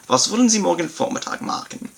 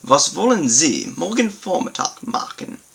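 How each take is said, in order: First: Higher German repeat. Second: Was wollen Sie morgen Vormittag machen read higher, stress on wollen; German model sentence. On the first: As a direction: lift the whole sentence for emphasis. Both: Shown as a demonstration. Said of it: "for better emphasis on this concept".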